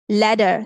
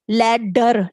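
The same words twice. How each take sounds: First: The middle D sound is said once. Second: The middle D sound is said twice. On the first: The speaker calls it right. "we say ladder, ladder. Only this D is pronounced" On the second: The speaker calls it wrong. "we don't say ladder"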